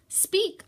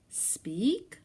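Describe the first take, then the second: First: Sharp high command to a pet. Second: Doubtful, hopeful rising ask; unsure question. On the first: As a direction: bark the order up high. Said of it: "I commanded". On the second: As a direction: ask it again, no longer sure. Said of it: "I said". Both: Acted.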